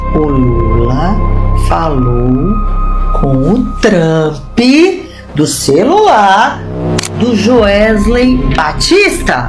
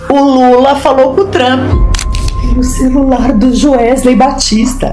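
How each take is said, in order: First: It is said very slowly. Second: It is said at normal speed.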